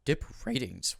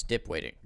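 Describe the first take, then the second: First: "Dip ratings" with a clear R sound; corrected word. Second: "Dip waiting" with a W sound in place of the R; slip of the tongue. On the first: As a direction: correct the slip, say "ratings" carefully. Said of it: "Dip waiting". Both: Real, not acted.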